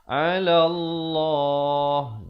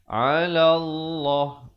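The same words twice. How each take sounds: First: The final vowel is held for two beats. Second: The final vowel is cut off abruptly. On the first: The speaker calls it right. "kena waqaf dengan sekurang-kurang dua harakat" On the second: The speaker calls it wrong. "Jangan pula kita berhenti 'ala Allah. Itu tak betul"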